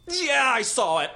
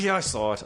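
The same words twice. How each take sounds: First: High, slow, drawn-out admission; grudging mom. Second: Said in the usual way. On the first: Retold or imitated. Mom admitting she saw son's commercial, slow grudging high voice. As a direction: concede it grudgingly as the mother. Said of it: "Like, she has to give up". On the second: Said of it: "She's like".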